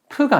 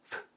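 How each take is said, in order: First: The sound is voiced, with vibrating vocal cords. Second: The sound is voiceless, only air escaping. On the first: The speaker calls it wrong. "프가 아니라" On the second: The speaker calls it right. "무성음이라는 ... 성대가 떨리지 않는 소리"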